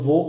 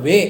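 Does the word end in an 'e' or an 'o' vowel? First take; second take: o; e. First: The word ends in an 'o' vowel. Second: The word ends in an 'e' vowel. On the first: "ഇതും ഉച്ചരിക്കുന്നത് വോ എന്ന രീതിയിൽ തന്നെയാണ്" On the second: "ഇനി അതേപോലെ തന്നെയാണ് വേ എന്ന് പറയുന്നത്"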